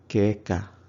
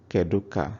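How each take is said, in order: First: Kedu is cut to one syllable. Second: Kedu is said with both syllables. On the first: The speech is casual, at home. "in everyday conversation at home, you would hear keka" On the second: The speech is careful and complete. "instead of saying kedu ka"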